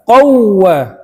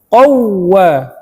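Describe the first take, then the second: No difference in how they are said.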